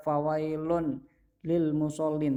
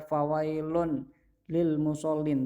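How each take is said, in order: First: The n sound is pronounced before lil. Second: The same.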